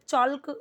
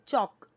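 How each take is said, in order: First: The word is said with an L sound. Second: The word is said without an L sound. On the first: The speaker calls it wrong. "एल silent है, चॉल्क नहीं बोलेंगे" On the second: The speaker calls it right. "हम उसको silent करते हैं"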